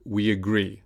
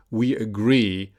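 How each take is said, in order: First: "we agree" run together with a y glide; "we agree" joined smoothly, we-yagree; linked as one word. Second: Said in the usual way. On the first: Shown as a demonstration. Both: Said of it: "usually sounds like one word".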